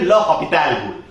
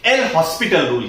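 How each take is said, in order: First: Said as 'lopital', with no s sound. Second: Said as 'el hospital', with an s sound. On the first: The speaker calls it right. "इसका सही pronunciation है" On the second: The speaker calls it wrong. "Actually वो pronunciation गलत है"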